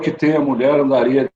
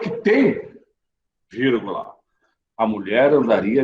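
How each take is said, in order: First: It is read straight through without any pause. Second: There is a pause right after tem. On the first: The sentence is confusing and hard to understand. "a gente leu sem pausa nenhuma" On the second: A woman would search hard for a man if he knew his own worth. "Agora vamos colocar essa vírgula"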